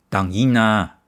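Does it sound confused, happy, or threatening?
threatening. It sounds threatening, like warning someone off.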